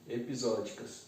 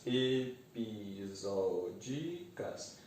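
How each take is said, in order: First: Said in the usual way. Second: EPISÓDICAS softly drawn out, e-pi-só-di-cas; syllable by syllable. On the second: Shown as a demonstration. Teacher separating the word for students, EPISÓDICAS in slow soft syllables. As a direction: say EPISÓDICAS very slowly in five syllables. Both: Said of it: "Separar as sílabas".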